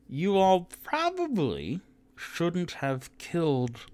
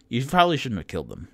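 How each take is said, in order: First: Higher, slow, drawn-out mild scold; half-orc scolding. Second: Fast, louder sing-song mimicry; mocking repeat. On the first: Acted. Half-orc woman warns the boys, slow and drawn out. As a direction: stretch it out like a gentle warning. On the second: Player mocks the half-orc's warning, fast and teasing. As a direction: parrot her line back teasingly.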